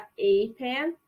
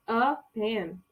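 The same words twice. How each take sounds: First: "a pen" with a short schwa; "a" reduced to uh before "pen". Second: "a pen" with "a" said like ay, slowly; full ay vowel in "a pen"; letter-name a. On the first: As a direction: say "a pen" with a weak uh sound. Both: Shown as a demonstration. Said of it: "Essas duas pronúncias estão corretas".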